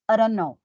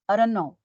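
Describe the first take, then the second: The two takes are said the same way.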